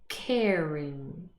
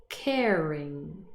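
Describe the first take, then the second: No difference in how they are said.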